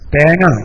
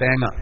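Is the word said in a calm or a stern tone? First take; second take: stern; calm. First: The word is said in a sterner, harsher tone. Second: The word is said in a calm, plain tone.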